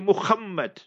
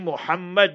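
First: The name is said with Afrikaans-influenced pronunciation. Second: The name is said with standard pronunciation. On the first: "that's the Afrikaans" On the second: "they won't say Muhammad"

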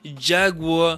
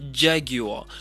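First: The word is said in an American way. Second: The word is said in a British way.

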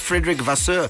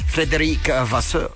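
First: The name is pronounced loosely and inaccurately. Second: The name is pronounced carefully and accurately. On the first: The speaker calls it wrong. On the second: The speaker calls it right.

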